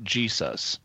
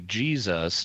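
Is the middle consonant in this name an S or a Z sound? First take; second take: S; Z. First: The middle consonant is a hissing S sound. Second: The middle consonant is a buzzing Z sound. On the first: This is not how English speakers say it. The speaker calls it wrong. "not Jesus" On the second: This is how English speakers say it. The speaker calls it right. "This is incidentally why we say Jesus"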